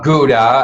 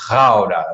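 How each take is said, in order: First: The name is said with an American pronunciation. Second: The name is said with a Dutch pronunciation. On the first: The speaker calls it wrong. "Not Gouda, as the as the Americans would say" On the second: The speaker calls it right. "that's how we Dutch do that"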